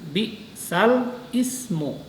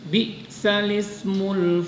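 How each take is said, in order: First: A glottal stop separates the two words. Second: The words run together with no glottal stop. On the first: The speaker calls it wrong. "jadi membacanya bukan bi'sal ismu" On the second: The speaker calls it right. "dipindah kepada huruf lam"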